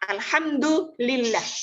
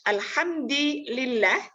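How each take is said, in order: First: The vowel after hamd is u. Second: The vowel after hamd is i. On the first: "alhamdu itu dibaca rofa" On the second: "dibaca jer"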